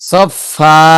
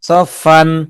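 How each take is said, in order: First: The word ends on a long vowel. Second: The word ends with an n sound. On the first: The reader stops on this word. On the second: The reading continues without stopping.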